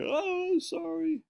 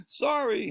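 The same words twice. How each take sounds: First: Very high squeaky mock oh sorry; embarrassed apology. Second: High, loud mock sorry; embarrassed apology. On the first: Snob classmate realizing he is from Portland, squeaky high mock apology. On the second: Snobby classmate apologizing to the Portland kid, high mock sorry. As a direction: squeak out a caught-out sorry.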